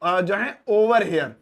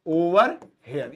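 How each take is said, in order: First: "over here" drawn out slowly; slow, careful teacher read; slow model phrase. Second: Syllable-by-syllable "over here"; split pronunciation. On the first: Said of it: "मैं कहूंगा". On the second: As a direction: break "over here" into two beats. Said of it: "ये बोलूंगा". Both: Shown as a demonstration.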